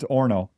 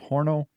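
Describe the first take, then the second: First: The word starts directly with the vowel. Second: The word starts with an audible H sound. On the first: The speaker calls it right. "it's orno" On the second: The speaker calls it wrong. "I said that one wrong"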